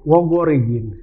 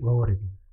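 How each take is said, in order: First: The word is pronounced harshly, not softly. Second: The word is pronounced softly and gently. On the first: This is how people read it from the book. The speaker calls it wrong. "mereka akan baca Wogorigin" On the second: This is how native speakers say it. The speaker calls it right. "kalau kita lembut Wogorigin"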